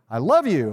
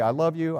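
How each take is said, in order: First: It is said with put-on emotion. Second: It is said flatly, like a robot.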